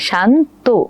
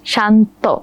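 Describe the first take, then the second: First: The word ends in a closed 'o' vowel. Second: The word ends in an open 'aw' vowel. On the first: "পরের বার আমরা ওকারান্ত করেছি" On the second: "আমরা তখন অ এর মতো করেছি"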